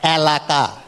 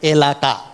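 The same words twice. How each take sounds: First: The first vowel is open, like 'cat'. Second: The first vowel is closer, like 'bed'. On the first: The speaker calls it wrong. "ছাগল sound" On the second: The speaker calls it right. "হবে এ sound"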